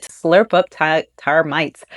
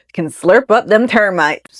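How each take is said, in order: First: Said in the usual way. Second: Lightly put-on country twang; folksy mock voice. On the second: Host redoing the termite fact, in jokey folksy voice. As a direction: redo it as a playful folksy aside.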